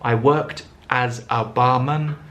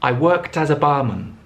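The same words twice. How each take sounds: First: Each word is said separately, without linking. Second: The words run together with linked sounds. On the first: The speaker calls it wrong. "hear the words separately ... Nobody speaks like that" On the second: The speaker calls it right. "the t of worked joins with as, the z of as joins with a"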